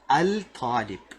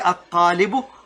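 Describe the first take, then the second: First: The article's L sound is clearly pronounced. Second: The L merges into a doubled T sound. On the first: The speaker calls it wrong. "we don't say al talib" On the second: The speaker calls it right. "we don't make the sound al. The sound of lam, it disappears"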